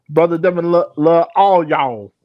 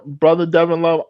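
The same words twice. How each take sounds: First: Fake country accent. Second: Said in the usual way. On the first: Shown as a demonstration. Host greets brother Devin in a fake country accent. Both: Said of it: "in my fake country accent voice".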